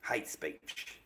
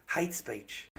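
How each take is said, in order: First: Whispered. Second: Said in the usual way. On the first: Real, not acted. Repeating the ban reason.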